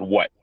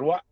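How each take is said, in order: First: Mildly irritated, short "What?"; retold reply with a touch of irritation; irritated retort. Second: Smiling reply. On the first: Athlete answering his counselor, mildly irritated. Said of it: "'Cause at this point I'm irritated". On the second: Retold or imitated. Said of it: "With a smile".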